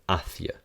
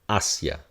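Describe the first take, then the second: First: The c is pronounced like a th. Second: The c is pronounced like an s. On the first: "in Spain, this will be a th" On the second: "this is going to sound like this"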